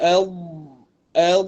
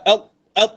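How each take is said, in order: First: The final consonant sound flows on without stopping. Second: The final consonant sound is stopped abruptly. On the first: The speaker calls it right. "suara kita boleh pergi" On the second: The speaker calls it wrong. "tak al al, ha, dia bukan itu"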